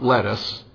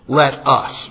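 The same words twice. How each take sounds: First: It runs together like the single word lettuce. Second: It is said as two clearly separate words. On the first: It sounds like the name of the vegetable. The speaker calls it wrong. "Not let us, like the vegetable" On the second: It is an invitation to act together. The speaker calls it right.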